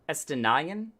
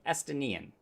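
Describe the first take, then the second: First: The third syllable has an 'eye' vowel. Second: The third syllable has an 'ee' vowel. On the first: "Is it I or E?" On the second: "so it's just E"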